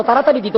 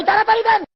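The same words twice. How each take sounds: First: Said in the usual way. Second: Very high, insistent cry; urgent demand. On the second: Acted. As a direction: call out impatiently at a high pitch. Same request acted as urgent cry. (খুব উঁচু গলায় ব্যাকুল তাগাদা)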